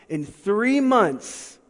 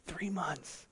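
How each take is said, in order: First: Slow, stretched and leaning on three; weighty emphasis. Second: Breathy echo, barely voiced; dramatic whisper. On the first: Acted. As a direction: drag out "three months" word by word for weight. Slowing on the key phrase. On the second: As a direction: whisper "Three months" back to let it sink in. Echoing the phrase for effect.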